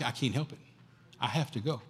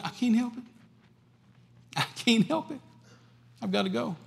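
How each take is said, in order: First: Soft, low resigned insistence; Paul quietly insisting he must go; Paul's quiet resolve. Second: High, helpless plea; Paul answering the prophet, high and helpless; Paul's helpless plea. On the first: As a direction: say it softly, resigned but firm. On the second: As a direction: pitch it high, as if it cannot be helped. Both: Acted.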